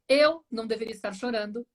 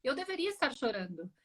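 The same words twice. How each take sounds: First: "Eu" hit hard, then the rest runs on; stress on Eu. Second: "deveria" gently emphasised in a softer voice; quiet reversal with the weight on "deveria"; stress on deveria. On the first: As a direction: land firmly on "Eu" to turn the blame onto yourself. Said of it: "eu poderia fazer a inversão". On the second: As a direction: softly offer the opposite, leaning on "deveria". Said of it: "Ou até ao contrário". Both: Shown as a demonstration.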